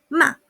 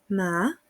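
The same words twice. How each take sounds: First: The syllable is short and forceful. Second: The pitch starts low and then rises. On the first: It means to scold. "bastante cortito y fuerte" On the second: It means hemp. "parte en un punto bajo y luego sube"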